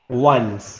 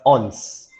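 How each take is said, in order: First: The word is said with a 'w' sound first. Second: The word is said as 'ons', without 'w'. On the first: The speaker calls it right. "the proper pronunciation of this word" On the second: The speaker calls it wrong. "students pronounce it wrongly"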